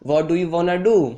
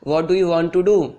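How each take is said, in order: First: 'Want to' is run together into 'wanna'. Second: Both words 'want to' are said in full. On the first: It is the casual, slangy way to say it. "English slangs का use करके बहुत ही smartly तरीके से बोल सकते हैं" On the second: It is the standard, ordinary way to say it. "आप इसको बोलेंगे what do you want to do"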